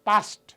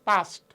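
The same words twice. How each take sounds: The two takes are said the same way.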